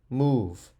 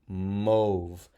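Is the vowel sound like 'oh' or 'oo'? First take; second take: oo; oh. First: The vowel is an 'oo' sound. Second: The vowel is a long 'oh' sound. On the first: The speaker calls it right. "If you said move, you're correct" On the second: The speaker calls it wrong. "O blanky says O"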